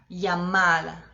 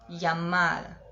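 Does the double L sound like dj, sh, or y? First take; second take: y; y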